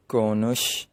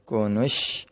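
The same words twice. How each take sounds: The two takes are said the same way.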